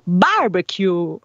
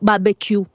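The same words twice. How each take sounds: First: Stress falls on the A, with a long ending. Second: The word is said with a French pronunciation. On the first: "mettiamo l'accento sulla A e poi andiamo lunghi in fondo" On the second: "una fonetica francese che è più barbecue"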